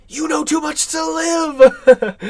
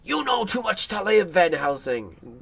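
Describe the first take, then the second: First: Hammed-up desperate cry, high, loud and drawn out; imitated terror. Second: Lightly acted menace, not shouted; mock anger. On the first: Actor's madman pleading for his life, mock terrified. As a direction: wail it like a man in fear for his life. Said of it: "that is a man scared for his life". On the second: Madman threatening the professor, imitated near-anger. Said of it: "plays him as almost angry".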